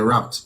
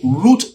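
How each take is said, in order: First: It is said with an American pronunciation. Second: It is said with a non-American pronunciation.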